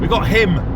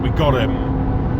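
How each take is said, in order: First: The word 'him' is clearly and carefully pronounced. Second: The word 'him' is blurred and unclear. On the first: "He enunciates the him the second time" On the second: "It sounds a bit like I said her"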